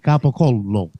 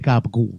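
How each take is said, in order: First: The word is said in full, every syllable sounded. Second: The word is clipped, with its ending dropped. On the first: The speaker calls it right. "we say" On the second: The speaker calls it wrong. "we don't say"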